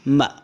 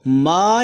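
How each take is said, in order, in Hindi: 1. स्वर छोटा रखा गया है। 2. स्वर लंबा खींचा गया है। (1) "बल्कि उसकी अपनी आवाज़ में पढ़ते हैं म" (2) "हम उसको मा नहीं पढ़ते, खींच कर नहीं पढ़ते"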